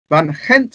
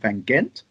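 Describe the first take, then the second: First: It is said with a Dutch pronunciation. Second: It is said with an English pronunciation. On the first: The speaker calls it right. "to give it its proper pronunciation" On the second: The speaker calls it wrong. "rather than calling it Van Gent"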